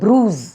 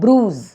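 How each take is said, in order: Both takes have the same delivery.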